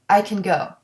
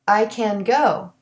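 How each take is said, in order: First: The word can is reduced to kin. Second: The word can has its full vowel.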